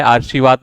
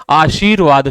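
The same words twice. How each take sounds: First: आशीर्वाद said "aar-shi-vaad", r before sh; wrong "aarshivaad". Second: आशीर्वाद said "aa-sheer-vaad", r after shee; correct "aasheervaad". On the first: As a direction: move the r ahead of sh in आशीर्वाद. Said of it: "आशीर्वाद नहीं होता है". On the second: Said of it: "आशीर्वाद शुद्ध होता है". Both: Shown as a demonstration.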